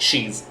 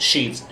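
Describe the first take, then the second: No difference in how they are said.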